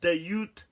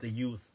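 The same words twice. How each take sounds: First: It is said like English slang with a put-on accent. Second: It is said as one Arabic word. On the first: It is the English phrase about young people. The speaker calls it wrong. "I'm not saying that with an accent like, yo, the youth" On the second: It names a morally corrupt person. The speaker calls it right. "The youth is one word. Dal, ya, wow, tha"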